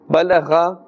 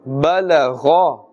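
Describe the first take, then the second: First: The gh sound is thin and light. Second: The gh sound is thick and full-mouthed. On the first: The speaker calls it wrong. "Balagha is incorrect" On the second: The speaker calls it right. "With a thicker sound, a full mouth"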